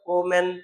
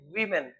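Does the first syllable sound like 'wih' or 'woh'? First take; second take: woh; wih. First: The first syllable sounds like 'woh'. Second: The first syllable sounds like 'wih'. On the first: The speaker calls it wrong. "इसको पढ़ते हैं वोमेन, ऐसा नहीं पढ़ते" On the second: The speaker calls it right. "यानी वी का sound लेते हैं वीमेन"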